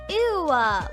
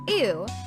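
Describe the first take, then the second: First: The word ends with an added vowel sound. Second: The word ends plainly with no extra sound. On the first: "she says ew uh, with an O" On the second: "Instead of ew"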